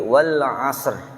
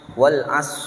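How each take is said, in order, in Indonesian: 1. Bunyi r di akhir diucapkan dengan jelas. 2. Bunyi r di akhir dihilangkan. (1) "tapi wal 'asr" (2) "jangan dibaca wal as, sehingga shotnya kebaca jelas tapi ro-nya hilang"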